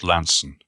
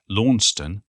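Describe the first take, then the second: First: The name is said short, rhyming with handsome. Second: The name is said in the longer, spelled-out form. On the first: This is the traditional local way of saying it. The speaker calls it right. "for me it's always been pronounced Lanson" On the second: This is how they say it in Tasmania. The speaker calls it wrong. "people began to pronounce it Launceston, like they do in Tasmania"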